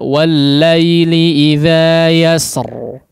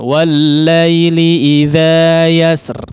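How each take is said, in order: First: The final r is pronounced heavy and thick. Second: The final r is pronounced light and thin. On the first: "Bisa ditebalkan" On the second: "boleh ditipiskan"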